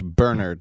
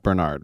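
First: The name is pronounced the English way. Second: The name is pronounced a non-English way. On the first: "the English Bernard" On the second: "not Bernard"

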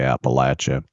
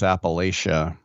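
First: It is said the way locals say it. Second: It is said the way Californians say it. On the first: The speaker calls it right. "people from there and they say it's Appalachia. Say it right" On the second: The speaker calls it wrong. "I'm from California. I always thought it was Appalachia"

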